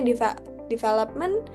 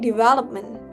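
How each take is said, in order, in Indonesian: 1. Kata ini dimulai dengan bunyi 'deva'. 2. Kata ini dimulai dengan bunyi 'dev' biasa. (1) "Ada yang baca deva- development" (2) "padahal itu baca development gitu"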